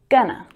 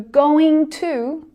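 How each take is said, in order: First: The words blend into one reduced form. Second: Each word is pronounced fully and separately. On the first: "becomes gonna" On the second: "So going to becomes gonna"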